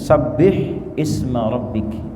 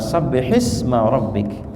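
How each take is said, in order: First: The word 'isma' starts with its own vowel. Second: The word 'isma' runs straight on from 'sabbih'. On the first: "Asal mula pembacaannya begini" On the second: "Ketika diwasal sabbih ke isma"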